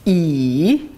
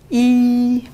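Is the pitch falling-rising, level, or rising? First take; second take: falling-rising; level. First: The pitch dips low, then rises again. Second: The pitch stays high and level. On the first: "Troisième ton" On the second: "premier ton plat"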